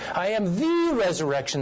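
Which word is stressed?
the. The stress falls on the word "the". He is the one and only source of resurrection. "It comes from no other source"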